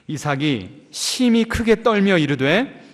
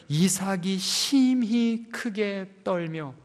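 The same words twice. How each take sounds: First: 심히 stressed, slow with rising tune. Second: 심히 drawn out very slowly with falling tune; stress on 심히. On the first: Preacher reading scripture with 심히 stressed, slow. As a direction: linger on 심히. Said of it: "어떻게 했다고요?". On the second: Preacher rereading the verse, drawing out 심히 very slowly. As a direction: dwell heavily on 심히. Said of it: "그냥 떨었다고만 해도 되는데 어떻게 했다고요?". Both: Shown as a demonstration.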